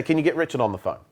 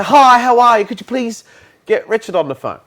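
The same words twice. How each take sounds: First: Curt, no-nonsense CEO order; just ask for it flatly, like you own the place; blunt boss request. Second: Bright, much louder and higher polite greeting; overly polite caller. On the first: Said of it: "He'd say". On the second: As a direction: gush the niceties before asking. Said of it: "He would say". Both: Shown as a demonstration.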